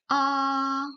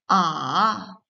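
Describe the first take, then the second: First: The pitch stays high and level. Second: The pitch dips down, then rises again. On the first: "Le premier ton, O est plat. C'est une voix stable" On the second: "Votre voix d'abord descend puis remonte"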